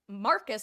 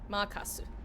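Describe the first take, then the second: First: The name is said with English pronunciation. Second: The name is said with Japanese katakana pronunciation.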